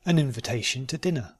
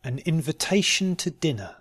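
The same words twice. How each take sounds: First: "An invitation to dinner" run together quickly. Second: "An invitation to dinner" slowly and carefully. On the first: Teacher repeating the practice sentence, quickly. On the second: Teacher giving learners a sentence to try, slowly. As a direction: take your time over "An invitation to dinner". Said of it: "first slowly and then". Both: Shown as a demonstration.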